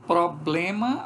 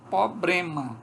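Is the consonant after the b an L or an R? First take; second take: L; R. First: The word is said with an L after b. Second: The word is said with an R after b.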